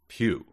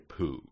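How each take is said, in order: First: The vowel has a y-glide, like 'pew'. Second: The vowel has no y-glide, like 'poo'. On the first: The speaker calls it right. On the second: The speaker calls it wrong. "Because I would say poo"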